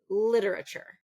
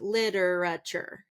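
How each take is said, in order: First: The first syllable is stressed, the second reduced. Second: All syllables get roughly equal stress. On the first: The speaker calls it right. "that second syllable really is reduced" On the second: The speaker calls it wrong. "kind of equal stress on a lot of the words"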